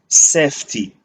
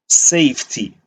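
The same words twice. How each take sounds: First: The vowel stays plain with no y glide. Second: The vowel ends with an added y glide.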